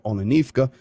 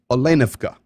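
First: The stress is not on the second syllable. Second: The stress is on the second syllable. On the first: The speaker calls it wrong. "it's not Olenovka or Olenivka" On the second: The speaker calls it right. "The accent, 99% of the time, goes on the second syllable of the word"

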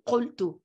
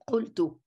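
Both takes have the same delivery.

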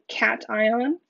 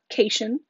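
First: The first syllable is said as 'cat'. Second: The first syllable is not said as 'cat'. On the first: The speaker calls it right. "but cation. The cat part means positive" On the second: The speaker calls it wrong. "not cation"

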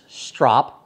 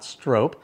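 First: The vowel is short, as in 'top'. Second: The vowel is long, as in 'rope'. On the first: The speaker calls it right. "the pronunciation is strop" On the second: The speaker calls it wrong. "not strope"

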